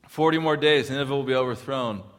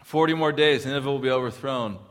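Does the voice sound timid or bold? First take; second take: bold; bold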